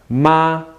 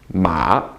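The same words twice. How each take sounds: First: The syllable is said with a high level tone. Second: The syllable is said with a dipping tone.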